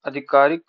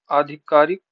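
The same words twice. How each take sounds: First: आधिकारिक begun with a short 'a'; wrong short first vowel. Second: Said in the usual way. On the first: Shown as a demonstration. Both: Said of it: "शुद्ध शब्द क्या है".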